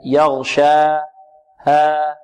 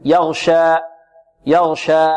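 First: Slow يغشى, the long a fading out into breath, no glottal stop; correct airy ending. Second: يغشى with the final long a cut off by a glottal stop; wrong hamza ending. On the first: Teacher explaining madd letters end in air, open fading vowel. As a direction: let the last a of يغشى run out into air. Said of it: "حروف مد للهواء تنتهي". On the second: Teacher showing the faulty stop to students, hamza ending. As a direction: close the last vowel of يغشى abruptly in a hamza. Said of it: "من الوقف عليها بهمزة". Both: Shown as a demonstration.

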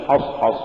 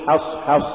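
First: حصحص with thick dark vowels; wrongly heavy ha. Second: حصحص with thin vowels after each h; has-has, front a in حصحص; light ha. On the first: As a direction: thicken both h sounds in حصحص. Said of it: "ولا تقل". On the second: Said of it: "قل". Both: Shown as a demonstration.

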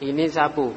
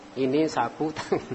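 First: Ini sapu with a full stop after sapu. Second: Ini sapu tangan run together with no break; one phrase. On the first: Teacher showing the wrong pause that changes the meaning, clipped. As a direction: cut the phrase off at sapu. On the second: Teacher showing the right phrasing to a student, smooth. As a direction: keep sapu tangan joined as one word. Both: Shown as a demonstration. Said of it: "Kalau mana berhenti, beda artinya".

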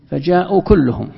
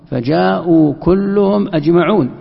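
First: Said in the usual way. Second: كلهم أجمعون said slowly and louder, each word weighted; stress on أجمعون. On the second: Shown as a demonstration. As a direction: lean hard on كلهم أجمعون, drawn out. (تشديد بطيء وعالٍ على كلهم أجمعون) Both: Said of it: "لكن لما تقول".

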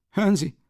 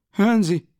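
First: High, loud angry call; loud Hören Sie, falling; shout. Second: Higher and louder still, hören Sie slammed down; louder shout. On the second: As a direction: bellow hören Sie even harder. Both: Acted. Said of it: "schrie er".

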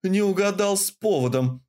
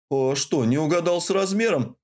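First: Growled. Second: Innocent. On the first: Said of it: "прорычала я". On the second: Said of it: "с самым невинным выражением лица". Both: A narrator's reading.

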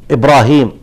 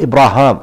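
First: "إبراهيم" with a long ee before the final m; Ibrahim reading. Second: "إبراهام" with a long aa before the final m; Ibraham reading. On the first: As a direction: say "إبراهيم" ending in "-heem". (نطق «إبراهيم» بالياء) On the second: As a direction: say "إبراهام" ending in "-haam". (نطق «إبراهام» بالألف) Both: Shown as a demonstration. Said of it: "في قراءة إبراهام".

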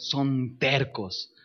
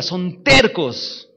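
First: Son tercos said slowly, stressing Son; slow emphasis. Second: Tercos punched louder and slow; loud stubborn stress. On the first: Preacher teaching the church that world-changers are stubborn, slow emphasis. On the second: Preacher driving home to the church that they are stubborn, loud stress. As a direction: hammer the word tercos. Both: Shown as a demonstration. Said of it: "tercos como la mula".

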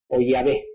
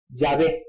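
First: Yahvé said much lower, yi-ah-vé with a v. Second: Yahvé said low as yah-vé with a v. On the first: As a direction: drop low and sound out Yahvé with a v. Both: Shown as a demonstration. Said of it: "ellos pronuncian".

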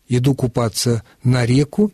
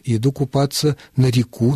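First: На реку with the beat on ре; stress on first syllable of реку. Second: На реку with the beat on ку; stress on last syllable of реку. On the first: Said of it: "можно и так". (ударение на первый слог: реку) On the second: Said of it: "и так". (ударение на последний слог: реку) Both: Shown as a demonstration.

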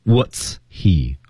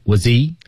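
First: "What's he" as two separate words with a clear h; unlinked pronunciation. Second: "What's he" run together as one word, wuh-zee; linked pronunciation. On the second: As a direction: link "What's he" with no gap. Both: Shown as a demonstration. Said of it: "连读十句爆破是关键".

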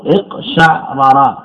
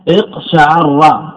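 First: اقشعرر slowly as iq-sha'-ra-ra, two separate r's; original unmerged form. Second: اقشعر slowly as iq-sha-'AR-ra, doubled r; assimilated form. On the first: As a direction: stop on the ayn in اقشعرر, then ra-ra. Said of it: "نقول أصله". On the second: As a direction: give اقشعر an a after the ayn and hold the r. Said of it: "نقول أصله اقشعرر". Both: Shown as a demonstration.

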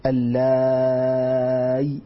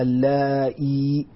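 First: اللاي with a very long drawn alif and a still ya, no hamza; long madd reading. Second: اللائي with the hamza vowel stretched into a full ya; ishba reading. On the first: Teacher demonstrates madd lazim reading, very slow and drawn. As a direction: drag out اللاي very slowly, ending on a silent ya. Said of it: "هكذا بياء ساكنة مع مد لازم". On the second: Teacher demonstrates the ishba reading of اللائي to students. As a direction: lengthen the ending of اللائي into a clear ya sound. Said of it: "وقرأت بالإشباع أي بالياء". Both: Shown as a demonstration.

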